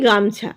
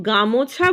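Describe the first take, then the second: First: গামছা said in two syllables, গাম-ছা, no vowel after ম; the usual spoken form, said plainly; everyday form. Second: গামোছা said with an added ও between ম and ছা; the form nobody actually says, spelled out; full vowel. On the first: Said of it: "আমরা বলি গামছা". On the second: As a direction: give গামোছা three syllables, গা-মো-ছা. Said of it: "আমরা কিন্তু গামোছা বলি না". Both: Shown as a demonstration.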